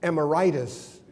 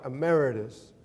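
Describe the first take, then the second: First: The word ends like the illness suffix 'itis'. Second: The word ends with a plain 'itus' sound. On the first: It sounds like the name of an illness. The speaker calls it wrong. "I mispronounced it. I thought it was emeritus and that I had some sort of illness" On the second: It is an honorary title. The speaker calls it right. "the proper way to pronounce my title"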